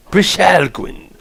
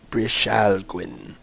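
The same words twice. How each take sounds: First: "Brishalgwin" high, slow and grand; announcer delivery. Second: "Brishalgwin" slow, soft, tentative; tentative sounding out. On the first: Acted. Streamer announces "Brishalgwin" after practising it, grand announcer delivery. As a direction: proclaim "Brishalgwin" as an announcer would. Announces the word once worked out. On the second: Real, not acted. Streamer puzzles over "Brishalgwin", slow tentative try. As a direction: feel out "Brishalgwin" quietly, drawing it out. Trying out an unfamiliar word.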